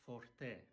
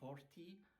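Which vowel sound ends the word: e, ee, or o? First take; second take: e; ee. First: The word ends in an e sound. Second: The word ends in an ee sound. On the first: The speaker calls it right. "it's forte. E, e" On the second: The speaker calls it wrong. "It's not forti"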